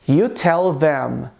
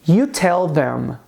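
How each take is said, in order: The two takes are said the same way.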